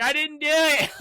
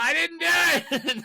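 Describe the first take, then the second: First: High, mock-panicked wail; imitated panicked protest. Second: Slow, high mock wail; imitated drawn-out protest. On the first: Kenny protests to the cop, mock panic. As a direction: plead innocence in a hammed-up high voice. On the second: Kenny runs from the cop, slow mock wailing. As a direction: stretch out the hammed-up plea of innocence.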